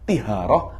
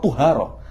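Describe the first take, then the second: First: The first vowel is an i sound. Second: The first vowel is a u sound.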